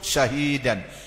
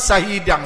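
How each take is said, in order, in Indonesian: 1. Bunyi pertama adalah sh yang melebar dan mendesis. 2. Bunyi pertama adalah s biasa yang sempit. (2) "berat tu"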